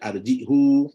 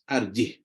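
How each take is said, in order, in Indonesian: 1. Kata ini berakhir dengan vokal u pendek. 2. Kata ini berakhir pada konsonan tanpa vokal. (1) "ada baca arjihu" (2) "membacanya dengan sukun, maka kita akan baca sukun"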